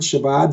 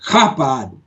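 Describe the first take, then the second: First: The first sound is a soft hiss. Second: The first sound is a rasping throat sound. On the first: The speaker calls it wrong. "because I'm pronouncing it wrong" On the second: The speaker calls it right. "like you're clearing your throat"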